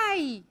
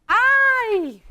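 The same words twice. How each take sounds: First: Said in the usual way. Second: High, loud ¡Ay! thrown out as a yelp; ant's cry of pain. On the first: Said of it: "Vamos a ponerla aquí". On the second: Retold or imitated. Teacher acts out the tortured ant crying out to the class in a high, loud yelp. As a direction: let out a sharp, high ¡Ay! as if hurt. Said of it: "que ella está gritando".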